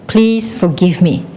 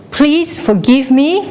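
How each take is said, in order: First: Slow echo, falling at the end; echo answering. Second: High, slow call, rising at the end. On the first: The world says it back, slow falling echo. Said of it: "it will also say". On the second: Someone on a cliff asking forgiveness, high call. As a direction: send it out slowly and higher. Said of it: "if you say". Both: Acted.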